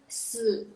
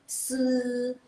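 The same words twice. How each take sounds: First: The pitch dips low and then rises. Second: The pitch stays high and level. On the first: "kalau nada ketiga" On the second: "kalau dia nada ke satu"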